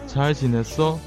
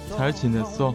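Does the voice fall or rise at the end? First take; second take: rise; fall. First: The pitch rises at the end. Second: The pitch falls at the end. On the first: It asks whether the listener has been well. "过得好吗？" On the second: It states that the speaker has been well. "过得很好。"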